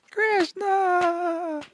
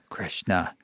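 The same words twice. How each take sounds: First: "Krishna" sung out much higher through laughter; high playful laughing "Krishna"; laughing delight. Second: Low and soft, said simply; quiet. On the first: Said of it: "And he's just laughing". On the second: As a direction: say the name softly, low. Guru answers softly. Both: Retold or imitated.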